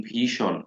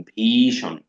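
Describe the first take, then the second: First: Said in the usual way. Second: ভীষণ with the ী drawn out long; stretched spelling-pronunciation. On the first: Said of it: "বানানটা আপনি এভাবে পড়বেন". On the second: Shown as a demonstration. Teacher drawing out ভীষণ for students. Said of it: "মানে একটু টাইনা পড়লেন".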